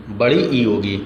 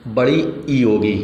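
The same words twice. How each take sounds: First: Said in the usual way. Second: बड़ी ई होगी with the ई held long; stretched long ई. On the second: Shown as a demonstration. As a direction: draw out ई in बड़ी ई to show a long vowel. ("बड़ी ई" में ई को खींचकर लंबा बोलें) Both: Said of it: "मूल दीर्घ स्वर में".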